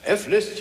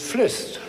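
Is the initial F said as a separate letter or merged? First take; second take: separate; merged. First: The F is said as a separate letter. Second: The F is merged into the name. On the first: "F list, young man" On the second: "is Flist. You don't say M Mozart"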